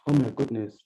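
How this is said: It is said in a sad, heavy tone. Something terrible has happened. "you see how my tone and my body gesture is complementing my emotion"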